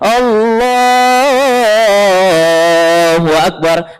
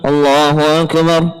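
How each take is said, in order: First: The phrase is drawn out long. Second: The phrase is said short and clipped.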